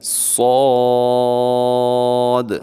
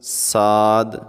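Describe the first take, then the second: First: The letter name is said heavy and full. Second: The letter name is said light and thin. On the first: The speaker calls it right. "सौद को आपने मोटा पढ़ना है" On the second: The speaker calls it wrong. "ऐसे नहीं पढ़ना"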